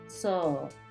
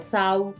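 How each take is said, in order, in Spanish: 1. La vocal es una o alargada. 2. La vocal se desliza como 'ow'. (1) "Es como una O alargada" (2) "no se pronuncia sau"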